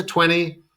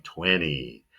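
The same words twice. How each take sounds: First: "twenty" with a clear T after the N; T pronounced. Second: "twenty" said as "twenny"; silent second T. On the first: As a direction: sound both Ts in "twenty". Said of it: "there is a T". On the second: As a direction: drop the T after N in "twenty". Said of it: "we usually s-, pronounce this like". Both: Shown as a demonstration.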